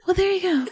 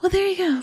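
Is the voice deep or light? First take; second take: light; light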